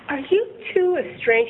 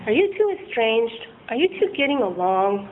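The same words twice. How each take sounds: First: Detective asking. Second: Slowed-down counsellor tone; therapist voice. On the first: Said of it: "And he's like". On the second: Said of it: "He starts to sound like a therapist". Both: Retold or imitated.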